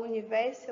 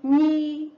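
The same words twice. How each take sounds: First: Said in the usual way. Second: "Universo" broken into u... ni... ver... so with long pauses; four loud, separate beats on "Universo"; syllable by syllable. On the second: Shown as a demonstration. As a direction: say "Universo" one isolated syllable at a time. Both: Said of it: "abro a minha boca quatro vezes".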